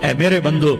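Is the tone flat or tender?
flat. It is said in a plain, flat tone. The speaker calls it wrong.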